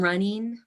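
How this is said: The ending is said with a Midwestern accent. "It's in the Midwest"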